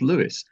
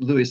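First: The name ends with an S sound. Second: The name ends without an S sound. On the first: This is how the man himself said his name. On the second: This is how most people say the name.

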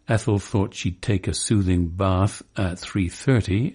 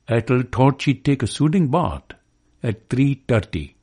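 First: It is said in an old-fashioned Cockney accent. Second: It is said in a Pakistani accent. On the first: "when an old-fashioned Cockney says" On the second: "or a Pakistani says"

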